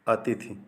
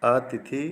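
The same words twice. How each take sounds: First: अतिथि with a short अ at the start; correct short vowel. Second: अतिथि with a long आ at the start, like आतिथि; wrong long vowel. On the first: Teacher giving students the correct अतिथि with a short अ. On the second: Teacher showing students the mistaken अतिथि with a long opening vowel. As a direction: stretch the first vowel of अतिथि. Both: Shown as a demonstration. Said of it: "देखिए".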